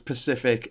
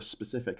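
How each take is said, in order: First: The word begins with a p sound. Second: The word begins with an s sound. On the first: The speaker calls it wrong. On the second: The speaker calls it right.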